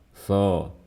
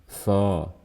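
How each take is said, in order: The two takes are said the same way.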